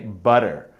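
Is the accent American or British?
American. It is said in an American accent. "As an American, I say butter. I pronounce the er, but I don't pronounce the t"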